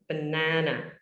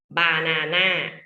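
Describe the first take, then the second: First: It is said with a standard English accent. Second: It is said with a Thai English accent.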